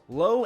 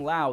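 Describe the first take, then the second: First: The name rhymes with 'go'. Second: The name rhymes with 'cow'. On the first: "They're both spelt the exact same way, but you pronounce it different" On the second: "They're both spelt the exact same way, but you pronounce it different"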